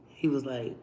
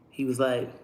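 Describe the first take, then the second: No difference in how they are said.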